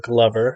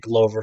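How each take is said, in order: First: The name rhymes with the word lover. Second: The name does not rhyme with lover. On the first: The speaker calls it right. "it's Glover with a G, so Glover" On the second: The speaker calls it wrong. "I say Glover from time to time"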